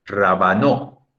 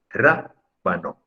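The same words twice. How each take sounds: First: "Rábano" said as rabaNÓ, drawn out; slow "Rábano" rising onto a stressed last syllable; wrong final stress. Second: "rábano" as RÁ, pause, bano; correct first-syllable stress. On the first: Teacher contrasting with the correct way, "Rábano" stressed on NO. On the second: Teacher showing the correct way to say it, "rábano" stressed on RÁ. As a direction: hit RÁ in "rábano", then drop away slowly. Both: Shown as a demonstration. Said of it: "La manera correcta de decirlo".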